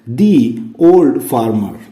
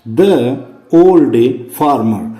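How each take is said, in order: First: 'The' is said with a long 'thee' sound. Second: 'The' is said with a short 'thuh' sound. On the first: The speaker calls it right. "इसका उच्चारण करेंगे अपने दी" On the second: The speaker calls it wrong. "अब देखो यहां पर द नहीं"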